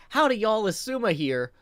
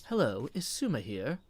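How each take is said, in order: First: Twangy greeting. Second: Lilting greeting in a twang-free neutral accent. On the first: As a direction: greet with a Southern-style twang, higher and louder. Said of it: "So if I'm like". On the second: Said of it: "go with a completely neutral". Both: Shown as a demonstration.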